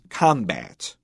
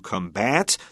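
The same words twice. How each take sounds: First: The stress is on the first syllable. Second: The stress is on the second syllable. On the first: It is used as a noun. "The noun is combat with the stress on the first syllable" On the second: It is used as a verb. "When it's a verb, we will say to combat"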